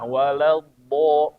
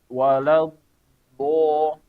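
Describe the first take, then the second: First: The phrase flows on without any pause. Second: A pause breaks the phrase before the last part. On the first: The speaker calls it right. "langsung pindah" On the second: The speaker calls it wrong. "Jangan walau, walau bo. Jadi ini keliru"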